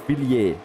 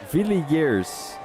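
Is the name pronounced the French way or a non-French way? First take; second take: French; non-French. First: The name is said with French pronunciation. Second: The name is said without French pronunciation. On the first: The speaker calls it right. "if it is French, it is Villiers" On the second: The speaker calls it wrong. "you're pronouncing it wrong"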